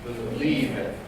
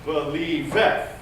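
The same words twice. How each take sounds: First: Believeth with weight on LIEV, last syllable dropping away; stress on second syllable. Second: Believeth slowed, rising into a punched final VETH; wrongly accented ending. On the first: Director showing the right accent, Believeth stressed on LIEV. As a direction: say Believeth, accenting the middle, falling at the end. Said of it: "Where's the accent?". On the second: Director mimicking the careless singer, Believeth accented on VETH. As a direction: hit the last syllable of Believeth hard, pitch going up. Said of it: "If we're not careful". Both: Shown as a demonstration.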